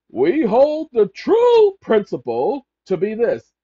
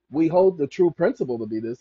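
First: Slow and louder, every word of "We hold the true principle to be this" weighed, "true" hit hardest; emphatic reading. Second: Said in the usual way. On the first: Shown as a demonstration. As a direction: read "We hold the true principle to be this" slowly and heavily, leaning on "true". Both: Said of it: "Now, he emphasizes this".

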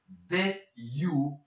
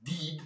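First: Did you with a relaxed, less sharp I; correct pronunciation. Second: Did with a sharp Spanish I; the mistaken did, vowel too sharp; wrong pronunciation. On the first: Teacher modelling English vowels, relaxed I in did. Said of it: "son menos aguda". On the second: Teacher mimicking learners, sharp Spanish I in did. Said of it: "No digas did". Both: Shown as a demonstration.

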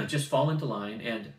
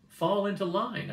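First: Said in the usual way. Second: Slow, higher mocking repeat of "Fall into line"; mocking echo. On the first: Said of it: "Fall into line," I said". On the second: Girl mocking the boy's order with a slow, higher echo. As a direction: echo "Fall into line" back slowly, pitched up to mock it. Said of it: "I said".

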